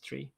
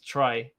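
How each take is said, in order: First: The vowel sounds like 'ee', as in 'tree'. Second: The vowel sounds like 'eye', as in 'try'. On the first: The speaker calls it right. "I think it's tree" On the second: The speaker calls it wrong. "I don't think it's try"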